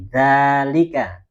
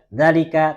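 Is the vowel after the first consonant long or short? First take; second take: long; short. First: The vowel after the first consonant is long. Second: The vowel after the first consonant is short. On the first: The speaker calls it right. "setelah huruf zalnya ini ada a, ada alifnya ini" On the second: The speaker calls it wrong. "Bukan dzalika"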